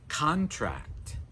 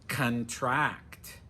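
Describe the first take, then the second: First: The stress is on the first syllable. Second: The stress is on the last syllable. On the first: It is used as a noun or adjective. "the stress is on the first syllable" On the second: It is used as a verb. "we're going to put the stress on the final syllable"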